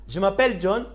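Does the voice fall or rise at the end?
rise. The voice rises at the end. It asks whether the name is John. "you need to raise up your voice"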